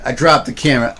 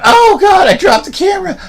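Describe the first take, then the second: First: Said in the usual way. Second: High shouted mock panic over a dropped camera. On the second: Vlogger mocking himself dropping the camera, high hammed-up shout. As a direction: ham up the horror of the fumble. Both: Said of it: "But I'm like".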